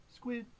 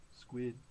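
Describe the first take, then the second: First: SQUID on a short high note. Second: SQUID on a short low note. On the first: Reader prompts children to say squid, high note. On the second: Reader prompts children to say squid, low note. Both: Pretend.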